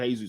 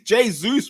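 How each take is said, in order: First: The name is said with English pronunciation. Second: The name is said with Portuguese pronunciation. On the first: The speaker calls it wrong. "strike one for anyone that's calling him Jesus" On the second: The speaker calls it right. "It's Portuguese Jesus"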